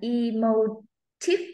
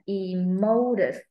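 First: The stress is on the third syllable. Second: The stress is on the second syllable. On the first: "Âm ba là da da da" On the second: "Âm hai là da da da"

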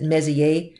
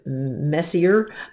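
First: The final letter of the name is silent. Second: The final letter of the name is sounded.

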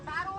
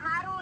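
First: The word begins with an s sound. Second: The word begins with an h sound. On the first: This is the standard form. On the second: This is the local dialect form.

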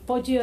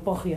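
First: The name is pronounced with Italian sounds. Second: The name is pronounced with Spanish sounds. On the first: This is the original form of the surname. "Poggio es en realidad el apellido italiano" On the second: This is an adapted local form of the surname. "a veces se dice como castellanizado Poggio"

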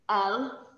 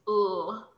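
First: It is said as the letter name with a vowel. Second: It is said as a bare consonant sound. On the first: The speaker calls it wrong. "it's really important that you don't say the letter name" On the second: The speaker calls it right. "you're saying the sound"

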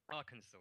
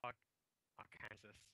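First: The name is said the American local way. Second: The name is read the way a British speaker would. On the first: The speaker calls it right. "Arkansas, of course" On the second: The speaker calls it wrong. "I'm a Brit, I'm not saying this right"

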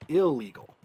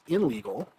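First: The n merges into a doubled l. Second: An n sound is kept before the l. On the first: The speaker calls it right. "The N letter assimilates with the next letter" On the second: The speaker calls it wrong. "We don't say that it is"

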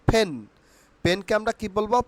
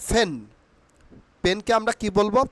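The two takes are said the same way.

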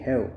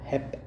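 First: The word ends with a 'v' sound. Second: The word ends with a 'p' sound. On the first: The speaker calls it right. "This should be the correct pronunciation" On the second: The speaker calls it wrong. "This is not hap"

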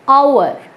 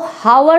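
First: The word begins with a vowel, no h. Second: The word begins with an audible h sound. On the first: The speaker calls it right. "H silent होता है, आपको पढ़ना पड़ेगा आवर" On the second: The speaker calls it wrong. "इसको जब आप पढ़ेंगे तो हावर नहीं पढ़ेंगे"

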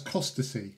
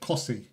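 First: The name is said with three syllables. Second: The name is said with two syllables. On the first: This is how the spelling reads. "I would read that as costacy" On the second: This is how locals say it. "They called it Cossy"

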